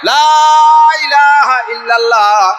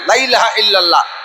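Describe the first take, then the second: First: The first word 'la' is drawn out long. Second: The first word 'la' is clipped short. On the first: There is no god but God. The speaker calls it right. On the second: There are other gods besides God. The speaker calls it wrong.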